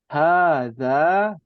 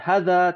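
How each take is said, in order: First: The first vowel is held long. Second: The first vowel is held short. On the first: The speaker calls it right. "agak panjang bacanya" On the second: The speaker calls it wrong.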